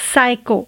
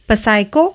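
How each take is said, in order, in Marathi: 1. सुरुवातीला s चा आवाज आहे, p नाही. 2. सुरुवातीला स्पष्ट p चा आवाज आहे. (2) "पसाइको नहीं"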